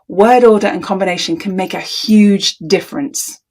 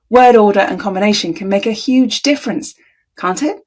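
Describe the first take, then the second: First: It sounds like a firm, confident statement. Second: It sounds tentative, seeking agreement.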